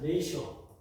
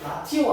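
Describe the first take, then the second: First: The first vowel is 'ay' with an 'sh' sound. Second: The first vowel is 'ah' with a hard t. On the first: The speaker calls it right. "라티오 아니고 이거 발음 기네스 발음이죠" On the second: The speaker calls it wrong. "라티오 아니야"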